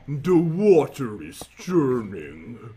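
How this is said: The voice is put on very deep.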